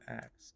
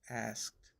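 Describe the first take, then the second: First: The k sound comes before the s. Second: The s sound comes before the k. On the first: The speaker calls it wrong. "not asked" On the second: The speaker calls it right. "you know that there's an S in there, right? It's asked"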